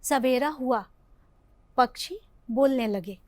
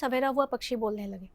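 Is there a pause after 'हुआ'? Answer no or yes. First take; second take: yes; no. First: There is a short pause after 'हुआ'. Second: It runs on with no pause after 'हुआ'. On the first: The morning came, and then the birds began to sing. "यहाँ पे हमें थोड़ी देर रुकना है" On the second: It sounds like an ordinary plain sentence. "अगर हम ऐसे ही बोले"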